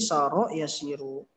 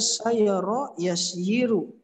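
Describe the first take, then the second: First: The first word is shortened to two syllables. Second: The first word has three syllables with a y. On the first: This is the form actually used because it is easier to say. "susah diucapkannya jadi saro yasiru" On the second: This is the underlying original form. "asalnya sayara yasyiru"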